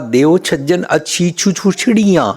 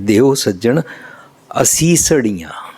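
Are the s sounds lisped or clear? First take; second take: lisped; clear. First: The s sounds are lisped into ch sounds. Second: The s sounds are pronounced clearly as s. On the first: A small child is saying it. "इस तरह बोलती सी उस वेला" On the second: The child has grown up and says it properly. "उन्होंने शुद्ध उच्चारण कर लिया"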